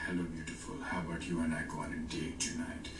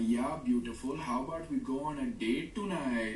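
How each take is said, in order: First: Put-on low, smooth South Asian accent; seductive brown accent. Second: Put-on high, lilting comic South Asian accent; funny brown accent. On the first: Asking someone on a date, creepily seductive brown accent. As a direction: brown accent played seductive, pitch dropped. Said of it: "if I do it with a seductive accent". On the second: Asking someone on a date, comically thick brown accent. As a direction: exaggerate a goofy South Asian accent, pitch raised. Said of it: "I did it with a funny accent".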